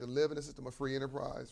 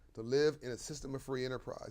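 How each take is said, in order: First: It is said at a normal pace. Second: It is said slowly and deliberately.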